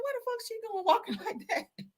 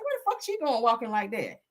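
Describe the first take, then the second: First: Squealed high through laughter, repeating the remark; high squeal laughing. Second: Said in the usual way. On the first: Retold or imitated. To the audience, about the witness's walk, a high laughing squeal. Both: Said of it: "I said".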